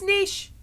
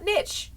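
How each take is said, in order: First: It uses the pronunciation most other speakers use. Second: It uses a common American pronunciation. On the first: The speaker calls it right. "It's niche. Everybody else says niche" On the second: The speaker calls it wrong. "I also hate how a lot of Americans say niche. It's not niche"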